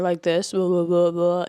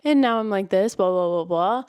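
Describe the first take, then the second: First: Low, louder blah-blah in a man's everyday voice; normal narrator voice. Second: Mock male narrator doing a girl's part; trying to be the girl. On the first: Reviewer showing a male narrator's normal voice, low and plain. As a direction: demonstrate a narrator's normal register. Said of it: "If you have a normal voice". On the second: Reviewer showing a narrator playing the girl, put-on voice. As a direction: put on a slightly louder girly narrator voice. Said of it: "you try to be the girl". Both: Shown as a demonstration.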